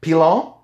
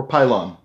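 First: "Pilon" said pee-LON with a nasal French ending; French pronunciation. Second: "Pylon" said PIE-lon; English pronunciation. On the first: Podcaster guessing at a French surname, saying "Pilon" as pee-LON. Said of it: "depending on if he's French or not". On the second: Podcaster offering the other surname reading, saying "Pylon" as PIE-lon. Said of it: "how he chooses to pronounce it". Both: Shown as a demonstration.

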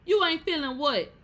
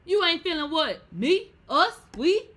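First: High, loud indignant question; indignant demand. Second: Higher and louder each word; rising indignation. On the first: Host challenging the parent who leaves, loud and incredulous. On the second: Host mocking the quitting parent, building to a high loud peak. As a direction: build the outrage up. Ranting at parents who leave. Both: Acted.

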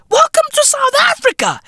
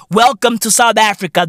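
First: Much higher, hammed-up shouted welcome; mock welcome shout. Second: Said in the usual way. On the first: Greeting Xi Jinping on arrival, with a high mock shout. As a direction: bellow the welcome like a street hawker. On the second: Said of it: "repeated welcome, said plainly".

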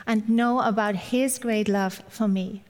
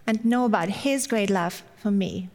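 The two takes are said the same way.

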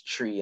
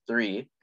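First: "tree" with a plain t for th; Jamaican pronunciation. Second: Said in the usual way. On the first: Shown as a demonstration. Explaining which sound draws giggles, Jamaican "tree" with a t. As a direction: say "tree" for three, Jamaican style. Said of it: "Jamaican accent pronounces the number". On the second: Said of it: "as tree instead of three".

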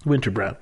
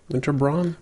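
First: Brown said like the colour brown; Brown pronunciation. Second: Braun said as "brawn", rhyming with dawn; Braun pronunciation. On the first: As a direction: say Winter Brown with an ow vowel. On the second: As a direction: say Winter Braun with an aw vowel. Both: Shown as a demonstration. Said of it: "they pronounce it Winter Brown".

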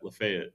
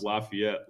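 First: Lafayette said "luh-FAY-et"; standard pronunciation. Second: Lafayette said "LAH-fee-ET"; local pronunciation. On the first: Co-host contrasting two ways to say a name, Lafayette as "luh-FAY-et". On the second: Co-host showing how locals pronounce a name, Lafayette as "lah-fee-ET". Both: Shown as a demonstration. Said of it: "They pronounce Lafayette".

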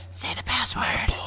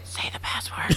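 First: Breathy whispered demand; whispering a secret password. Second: Soft whispered insistence; whispering a secret password. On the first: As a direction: whisper it through the door. Acted partner demands password. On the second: Repeated password demand. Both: Acted.

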